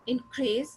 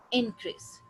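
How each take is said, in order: First: increase with the weight on crease; stress on second syllable. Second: increase with the weight on opening इं; stress on first syllable. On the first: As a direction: lean on the final crease of increase. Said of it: "crease को capital दिया है जिसपे stress है". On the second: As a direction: hit इं in increase, lighten crease. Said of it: "यहाँ पे इंक पे". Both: Shown as a demonstration.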